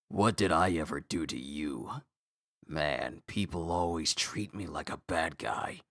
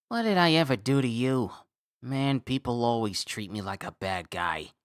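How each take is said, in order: First: It is said in a lower character voice. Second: It is said in a high character voice.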